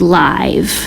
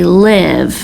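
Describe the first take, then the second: First: The vowel is long, like in 'five'. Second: The vowel is short, like in 'give'. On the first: "if we just sounded it out, it would be live" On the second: "But sometimes when we use this word, we say live"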